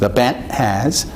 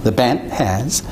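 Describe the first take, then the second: No difference in how they are said.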